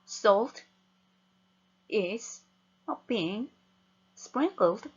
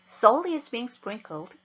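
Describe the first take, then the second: First: Each word is read separately with breaks between. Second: The words are read together in one breath. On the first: The meaning does not come across. The speaker calls it wrong. "이거는 단어의 나열이지 의미 전달을 받을 수 없습니다" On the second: The meaning comes across as a unit. The speaker calls it right. "가급적 한 호흡에"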